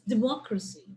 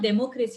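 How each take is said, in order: First: The stress falls on the usual syllable. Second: The stress falls on an unusual syllable. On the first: The speaker calls it right. "that's the right pronunciation" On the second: The speaker calls it wrong. "it's not democracy, you're not putting the stress in the right syllable"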